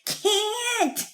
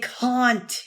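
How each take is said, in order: First: The vowel is flat and nasal, in a New York accent. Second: The vowel is broad and rounded, in a polished accent. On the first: The speaker calls it wrong. "a kind of a New York accent" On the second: The speaker calls it right. "teach her how to use round, round tones"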